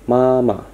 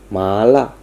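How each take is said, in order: First: The pitch stays high and level. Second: The pitch rises from low to high. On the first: "nada tinggi tetapi datar, seperti sebuah garis datar" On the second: "nada yang naik dari rendah ke tinggi"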